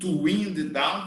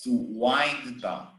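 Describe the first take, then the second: First: Wind has a short vowel, like pinned. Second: Wind has a long vowel, like kind. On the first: The speaker calls it wrong. "doesn't exist" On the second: The speaker calls it right. "It's to wind down"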